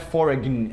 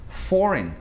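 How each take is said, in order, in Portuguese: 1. Ouve-se um som de g na palavra. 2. Não se ouve som de g na palavra. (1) "Então não é foreign" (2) "Tem um G, a gente ignora"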